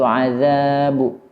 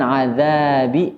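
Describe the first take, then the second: First: The final b bounces toward a u sound. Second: The final b bounces toward an i sound. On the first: "atau azabu" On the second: "bukan azabi"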